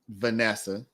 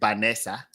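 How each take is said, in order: First: It is pronounced with an English accent. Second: It is pronounced with a Spanish accent. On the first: This is the form she can manage. "she can say Vanessa" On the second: This is how Spanish speakers say it. "even though they say Vanessa"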